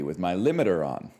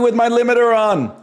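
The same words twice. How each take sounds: First: It is spoken at a normal volume. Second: It is spoken very loudly. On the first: "I'm talking normally" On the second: "I'm talking really loudly"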